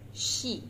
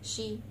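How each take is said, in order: First: The vowel is said with lips spread smiling. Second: The vowel is said with lips not spread. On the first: The speaker calls it right. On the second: The speaker calls it wrong. "Do not say she"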